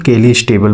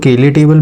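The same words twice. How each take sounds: First: "केलीज table" with an ee vowel and closing sibilant; variant pronunciation. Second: "केले table" with no s sound closing केले; "केले" as two syllables, ke-le, before table; variant pronunciation. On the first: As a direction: say केलीज as ke-lees, then table. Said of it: "कुछ लोग केलीज table बोलते हैं". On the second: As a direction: say केले ending on an open vowel, then table. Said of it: "कुछ लोग केले table बोलते हैं". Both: Shown as a demonstration.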